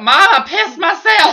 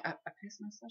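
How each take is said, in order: First: High, loud, drawn-out mock yell; exasperated shout. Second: Very soft, high, halting confession; trying to be quiet. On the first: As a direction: blurt it out at full volume, half laughing. Repeats confession loudly to Mom. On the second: Retold or imitated. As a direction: mumble it secretly so nobody overhears. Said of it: "trying to be so fucking quiet".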